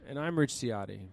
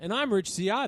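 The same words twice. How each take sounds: First: It is said in a quiet, subdued way. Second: It is said with lively, loud energy.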